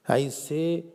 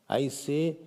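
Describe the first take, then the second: Both takes have the same delivery.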